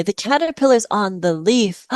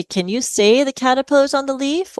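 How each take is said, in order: First: "The caterpillar's on the leaf" stated as a model, no question rise; the right way, telling not asking; modelling the sentence. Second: Rising question tune on "Can you say the caterpillar's on the leaf?", pitch lifted high; the wrong way, a pleading question that climbs high; asking as a question. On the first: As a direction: say "The caterpillar's on the leaf" as a clear statement for the child to copy. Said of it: "Or I might say". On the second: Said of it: "you can't say". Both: Shown as a demonstration.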